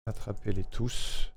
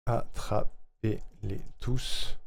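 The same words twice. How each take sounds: First: Soft, slowed try of a catchphrase; slogan run-through. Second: Very slow, each syllable set apart. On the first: Streamer rehearsing a jingle line, soft and slow. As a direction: say it slowly and softly, testing the rhythm. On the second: Streamer working out the jingle rhythm, very slowly, syllable by syllable. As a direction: stretch it out piece by piece. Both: Real, not acted.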